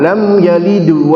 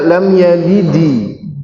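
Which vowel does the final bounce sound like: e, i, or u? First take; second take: u; i. First: The final bounce sounds like a u. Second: The final bounce sounds like an i. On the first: "itu tidak benar" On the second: "Tidak dibaca lam yalidi"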